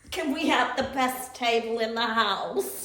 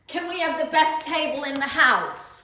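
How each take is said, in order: First: It is said in a demure, restrained manner. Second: It is said in a bold, unrestrained manner.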